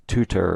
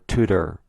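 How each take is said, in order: First: "tutor" with a clear second T; carefully sounded T in "tutor". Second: "tutor" with the middle T turned to D; "tutor" softened into Tudor; D sound in tutor. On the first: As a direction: say "tutor" as too-ter, with a crisp middle T. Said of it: "pronounced altogether". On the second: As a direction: say "tutor" as too-der, like Tudor. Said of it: "T and D have similar pronunciation". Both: Shown as a demonstration.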